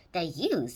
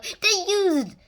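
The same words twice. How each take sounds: First: Said in the usual way. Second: Put-on high, loud jokey Chinese accent; a bad put-on Chinese accent; badly faked Chinese accent; mock Chinese accent. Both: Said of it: "worst Chinese accent".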